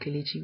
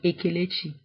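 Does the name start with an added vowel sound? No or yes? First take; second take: no; yes. First: It starts directly with the k consonant. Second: An extra vowel is added before the k. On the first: "it's the Igbo name Kelechi" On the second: "We would say a Kelechi"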